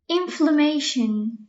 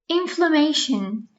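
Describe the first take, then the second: No difference in how they are said.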